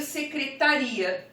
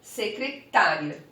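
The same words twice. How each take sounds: First: "secretaria" stressed on the RI, se-cre-ta-RI-a. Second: "secretária" stressed on TÁ, se-cre-TÁ-ria, drawn out; accented "secretária", slow, weight on TÁ. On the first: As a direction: lean on the "i" near the end of "secretaria". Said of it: "Sem acento, eu leio". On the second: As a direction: slowly hit the TÁ in "secretária". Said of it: "E com acento". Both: Shown as a demonstration.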